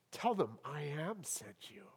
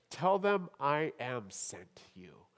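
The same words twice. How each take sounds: First: "Tell them I am sent you" whispered, softer, in awe. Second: Said in the usual way. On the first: Shown as a demonstration.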